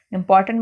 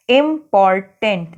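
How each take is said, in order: First: Said in the usual way. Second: इंपॉर्टेंट slowly split as इम-पॉर-टेंट; syllable by syllable. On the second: Shown as a demonstration. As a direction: sound out इंपॉर्टेंट in three slow beats. (इंपॉर्टेंट को धीरे-धीरे इम-पॉर-टेंट बोलना) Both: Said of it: "तीन syllable हो गए ना".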